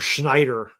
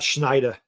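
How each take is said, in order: First: The final R sound is clearly pronounced. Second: The final R sound is dropped, city style. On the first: This is how the speaker normally says it. "I say ... Schneider" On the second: This is the thick city accent, not the speaker's. "not Schneider"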